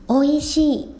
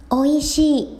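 No difference in how they are said.

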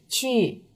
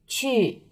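Both takes have the same delivery.

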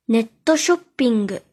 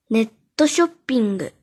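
Both takes have the same delivery.

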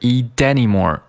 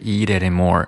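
First: The t is a full, unflapped t. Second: The t is a light tongue flap. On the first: The speaker calls it wrong. "注意不是eat anymore" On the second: The speaker calls it right. "而是eat anymore，舌尖有一个非常轻的一个跳跃"

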